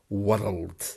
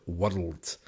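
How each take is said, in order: First: The R is pronounced strongly and hard. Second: The same.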